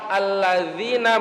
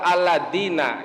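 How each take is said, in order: First: The middle consonant is a soft 'dh' sound. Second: The middle consonant is a 'd' sound. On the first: The speaker calls it right. "pas lafaz alladzina" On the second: The speaker calls it wrong. "atau dengan dal"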